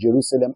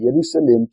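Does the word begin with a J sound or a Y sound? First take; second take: J sound; Y sound. First: The word begins with a J sound. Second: The word begins with a Y sound. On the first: This is the later form after the letter change. "They changed from I to J" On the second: This is the older form before the letter change. "that pronunciation of Y"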